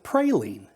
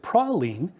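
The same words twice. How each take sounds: First: It is said the way a Texan would say it. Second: It is said the way Louisiana locals say it. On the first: "a Texan might be more likely to pronounce it" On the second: "folks in Louisiana tend to pronounce it"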